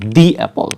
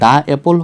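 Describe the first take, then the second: First: The word 'the' is said with a long 'ee' vowel. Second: The word 'the' is said with a short 'uh' vowel. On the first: The speaker calls it right. "তো vowel হলে উচ্চারণ কি হবে, দি।" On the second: The speaker calls it wrong. "আমরা যদি বলি দা অ্যাপল হবে নাকি দি অ্যাপল হবে"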